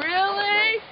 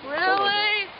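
The two takes are said the same way.

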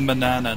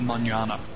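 First: The second consonant is a plain n sound. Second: The second consonant is an ny sound. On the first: The speaker calls it right. "since there's no tilde, it's the manana" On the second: The speaker calls it wrong. "not the manana"

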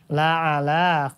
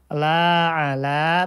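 First: The vowel in 'la' is short. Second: The vowel in 'la' is long. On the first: The speaker calls it right. "ini la-nya harusnya pendek" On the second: The speaker calls it wrong. "tadi dibacanya la ala begitu"

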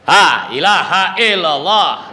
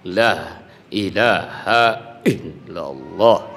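First: It is shouted loudly outward. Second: It is strong but held from within.

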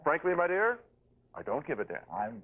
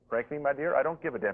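First: The line is delivered heavily, with great weight. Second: The line is tossed off lightly, without weight. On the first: The speaker is treating it as a famous, important line. The speaker calls it wrong. "a lesser actor would have read it as if it were a great line" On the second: The character does not know it is a memorable line. The speaker calls it right. "He reads it not like a great line. He rolls right over it"

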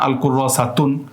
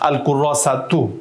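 First: The word ends with an n sound. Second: The word ends with a vowel sound. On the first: The speaker calls it wrong. "এভাবে পড়া যাবে না" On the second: The speaker calls it right. "আপনাকে পড়তে হবে"

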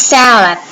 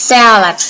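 Both takes have the same delivery.

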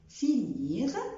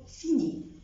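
First: The final consonant is pronounced. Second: The final consonant is silent. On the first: The speaker calls it right. "بنطق الاف" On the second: The speaker calls it wrong. "مش بقول فيني"

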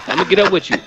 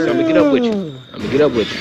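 First: It is said in the speaker's ordinary accent. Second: It is said in a put-on Missouri accent.

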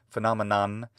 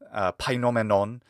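First: It is said with an English pronunciation. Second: It is said with an ancient Greek pronunciation.

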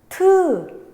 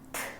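First: A voiced vowel follows the t sound. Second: Only a puff of air follows the t. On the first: "트 울리죠" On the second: "트 안 울리죠"

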